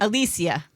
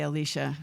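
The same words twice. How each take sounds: First: "Alicia" with an S sound, four syllables; pronounced a-LEE-see-uh. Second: "Alicia" with a SH sound, three syllables; pronounced a-LEE-shuh. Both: Shown as a demonstration. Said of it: "I say Alicia".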